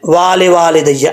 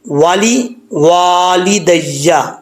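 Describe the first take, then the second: First: The first 'wa' is long, the second short. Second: The first 'wa' is short, the second long. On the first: The speaker calls it wrong. "लोग इसको पढ़ते हुए पहले वाव के बाद अलिफ पढ़ जाते हैं, दूसरे वाव के बाद अलिफ छोड़ देते हैं ... ऐसे नहीं पढ़ना" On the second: The speaker calls it right. "पहले वाव को लंबा नहीं करना, दूसरे वाव को लंबा करना है"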